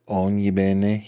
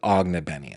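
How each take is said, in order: First: The surname is said with Italian pronunciation. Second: The surname is said with anglicized pronunciation. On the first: This is how the name would be said in Italy. "it must be an Italian last name, like Ognibene" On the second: This is how the family itself says the name. "but they pronounce it Ognebenny"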